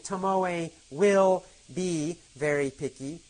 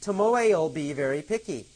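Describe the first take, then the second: First: The word will is said in full. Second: The word will is reduced onto Tomoe. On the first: "Instead of saying" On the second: "we can say"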